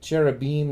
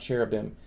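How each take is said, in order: First: The final syllable is said the Hebrew-style way. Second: The final syllable is said the English-style way. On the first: The speaker calls it right. "The I am is supposed to be im, like cherubim" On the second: The speaker calls it wrong. "not cherubim. You can say it like English people"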